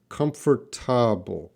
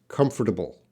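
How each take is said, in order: First: The word is said slowly and fully. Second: The word is said quickly and compressed.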